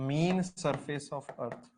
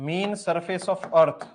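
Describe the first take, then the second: First: Very slow, softer repeat of the dictated words; slow dictation. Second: Each word drawn out very slowly, x0.2 pace; slow dictation. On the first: Teacher repeating a note to the class, slow and quiet. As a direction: spell it out slowly for note-taking. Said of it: "teacher repeats the dictated note". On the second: Teacher dictating to the class, very slow and deliberate. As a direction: dictate it slowly so students can write. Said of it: "teacher dictates a note to class". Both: Shown as a demonstration.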